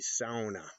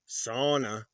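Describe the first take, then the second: First: It uses the Upper Peninsula regional pronunciation. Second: It uses the South Dakota regional pronunciation. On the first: "here in the U P, it's called a sauna" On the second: "Growing up in South Dakota, we pronounced it sauna"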